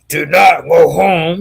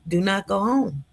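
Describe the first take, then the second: First: It is said in a harsh, stern tone. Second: It is said in a gentle, nice tone.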